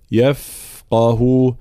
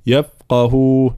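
First: Slow يفقه with a long hissed ف; correct flowing fa. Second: يفقه with the ف cut short; wrong clipped fa. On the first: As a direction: let the air run on ف in يفقه. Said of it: "بيان خاصة صفة الرخاوة في الفاء". («يفقه» برخاوة الفاء وجريان صوتها) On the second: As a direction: stop the airflow on ف in يفقه. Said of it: "الفاء فيها جريان صوت، فلا نقول". («يفقه» بقطع جريان الفاء خطأً) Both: Shown as a demonstration.

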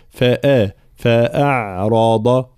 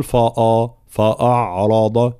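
First: Slow فأعرض with thin, open فأ; correct light hamza. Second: Slow فأعرض with a thick, dark فأ; wrong heavy hamza. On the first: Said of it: "فالانتباه". («فأعرض» بهمزة مرققة وراء مفخمة) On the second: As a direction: darken fa and hamza in فأعرض, as a mistake. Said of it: "فلا نقول". («فأعرض» بتفخيم الهمزة خطأً) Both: Shown as a demonstration.

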